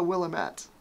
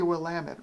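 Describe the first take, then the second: First: It sounds like 'Willem' plus '-ette'. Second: It does not sound like 'Willem' plus '-ette'. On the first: The speaker calls it wrong. "it's not a small Willem Dafoe. It's not a Willamette" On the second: The speaker calls it right. "it's got to be Willamette, right?"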